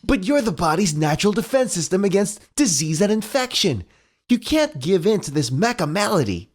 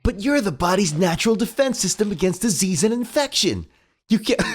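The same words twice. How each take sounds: First: Raised heroic cartoon voice; rallying hero, read again; Sonic voice. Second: High heroic cartoon hedgehog; earnest hero pep talk; Sonic voice. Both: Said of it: "quoted straight from the comic".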